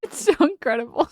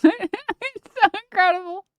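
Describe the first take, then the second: First: Said in the usual way. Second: High, squeaky laughing take on the same line; laughing disbelief. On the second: Shown as a demonstration. Streamer laughing in disbelief at the clip, high and giggly. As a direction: say it through laughter, pitch jumped up. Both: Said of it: "This is a filter I can't tell".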